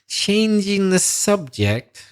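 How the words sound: The phrase sounds bored and dismissive. The other person's topic has gone on too long. The speaker calls it wrong. "if you say it kind of like this"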